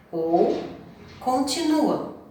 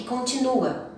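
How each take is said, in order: First: Continua drawn out slowly and higher, trailing off. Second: Said in the usual way. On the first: Shown as a demonstration. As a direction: stretch continua like an unfinished thought.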